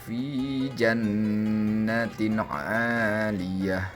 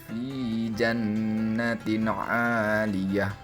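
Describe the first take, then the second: Both takes have the same delivery.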